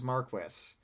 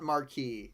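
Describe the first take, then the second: First: It is pronounced in the British way. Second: It is pronounced in a non-British way. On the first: The speaker calls it right. "like the British pronunciation" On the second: The speaker calls it wrong. "specifically not Marquis"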